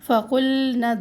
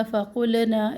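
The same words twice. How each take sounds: First: फ़क़ुलना with a still, unstretched लाम; correct recitation. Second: फ़क़ुलना with the लाम stretched by a long vowel; the mistaken reading of फ़क़ुलना; wrong way. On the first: Teacher recites the right reading after the wrong one. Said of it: "लाम साकिन का ध्यान रखें". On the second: Teacher warns students, showing the wrong reading. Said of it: "फ़क़ुलना ऐसे नहीं पढ़ना". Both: Shown as a demonstration.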